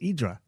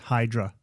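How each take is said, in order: First: The word begins directly with a vowel sound. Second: The word begins with a breathy H sound. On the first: A local is saying it the Greek way. The speaker calls it right. "Silent silent H" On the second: An outsider or tourist is saying it. The speaker calls it wrong. "how many times have people said it's"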